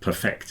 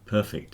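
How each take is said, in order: First: The stress is on the second syllable. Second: The stress is on the first syllable. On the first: It means to make something flawless. "but perfect is the verb" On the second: It describes something as flawless. "Perfect is an adjective"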